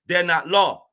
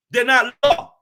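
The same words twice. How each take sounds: First: Said in the usual way. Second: "not" hit hard, louder and higher; stress on not. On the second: Real, not acted. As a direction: punch the word "not" in "They're not law". Repeats the phrase, louder second time.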